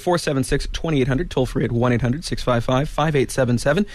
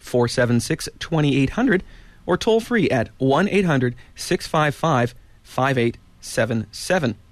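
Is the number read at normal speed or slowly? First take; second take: normal; slowly. First: The number is read at normal speed. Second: The number is read slowly and carefully.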